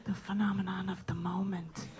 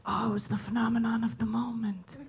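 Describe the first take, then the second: First: Soft, savoring whispered echo; whispered repeat. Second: Hushed, mock-reverent whisper. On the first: Shown as a demonstration. Comedian echoing the audience's phrase in a savoring whisper. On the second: Audience member whispering about the show, hushed. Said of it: "you'll be like".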